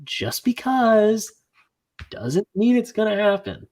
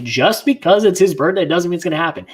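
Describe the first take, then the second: First: Slow, high-pitched, drawn-out protest; exasperated emphasis. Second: Exasperated rant. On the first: Friend repeating his rant to drive it home, exasperated. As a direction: stretch out "Just because", then pause. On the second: Friend retelling his rant from the drive, exasperated. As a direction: drive the point home in one run. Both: Retold or imitated.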